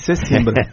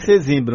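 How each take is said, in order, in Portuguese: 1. A consoante do meio é som de s. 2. A consoante do meio é som de z. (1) "está escrito com S, eu falei Sesimbra" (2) "Se tivesse Z, eu falava Sesimbra"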